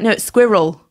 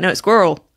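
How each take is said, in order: First: It is said in a British accent. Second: It is said in an American accent.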